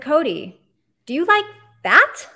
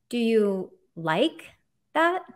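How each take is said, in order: First: The stress is on "that". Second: The stress is on "like".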